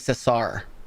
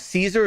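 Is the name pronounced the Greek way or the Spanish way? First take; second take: Spanish; Greek. First: The name is pronounced the Spanish way. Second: The name is pronounced the Greek way. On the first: The speaker calls it right. "His name was Caesar. ... He's Spanish" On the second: The speaker calls it wrong. "Caesar is the Greek pronunciation"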